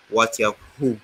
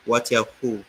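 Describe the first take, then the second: No difference in how they are said.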